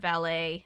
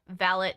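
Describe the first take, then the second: First: It is said with an American pronunciation. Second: It is said with an English pronunciation. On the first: "instead of" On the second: "in England they say"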